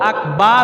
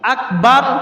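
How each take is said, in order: First: The vowel in akbar is drawn out long. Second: The vowel in akbar is kept short. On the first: It means drum. The speaker calls it wrong. "আকবার মানে ঢোল, একটু টান দিছে বেশি" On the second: It means great. The speaker calls it right. "আকবার মানে বড়"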